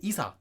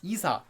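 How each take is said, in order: The two takes are said the same way.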